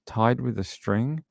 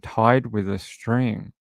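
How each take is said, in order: First: Slow TIED, rising on STRING; puzzled questioning echo. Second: Said in the usual way. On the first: Real, not acted.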